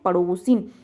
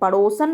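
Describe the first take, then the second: First: The ending is said 'sin' with an 'i' vowel. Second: The ending is said 'san' with no 'i' vowel. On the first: The speaker calls it right. "शुद्ध शब्द क्या है, पड़ोसिन" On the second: The speaker calls it wrong. "पड़ोसन नहीं होता"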